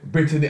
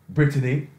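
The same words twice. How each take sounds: First: It is said in a relaxed, natural accent. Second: It is said in a put-on white accent. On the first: This is how it comes out without thinking. "when I just said" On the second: This is a style nobody in the community speaks. "say it in Caucasian style"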